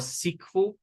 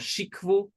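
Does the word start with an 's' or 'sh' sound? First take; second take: s; sh. First: The word begins with an s sound. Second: The word begins with a sh sound. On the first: "with an S sound instead of sh" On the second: "So Shikvu or Sikvu, both pronunciations are, are correct"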